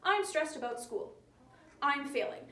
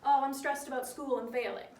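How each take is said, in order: First: Two separate sentences with a full stop between; stilted, over-punctuated delivery; choppy. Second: Relaxed, run together like chatting to a friend; easygoing spoken version, no stops; casual chat. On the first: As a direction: break it into stiff, choppy halves. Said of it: "People don't really talk like that. It's choppy". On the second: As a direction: toss it off the way you'd talk to friends. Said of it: "This is how you would talk to your friends". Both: Shown as a demonstration.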